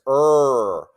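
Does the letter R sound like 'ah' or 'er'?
er. The letter is said with a clear r sound. "R sounds like this"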